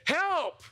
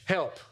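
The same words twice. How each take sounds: First: It is cried out desperately. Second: It is said with some passion.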